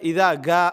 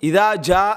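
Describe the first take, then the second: First: The verb begins with a hard 'g' sound. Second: The verb begins with a 'j' sound. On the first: This is how it is said in the local dialect. "அந்த ஜீமுக்கு கான்னு வந்துடும்" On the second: This is how it is recited in the Quran. "குர்ஆனில் ஓதிட்டு"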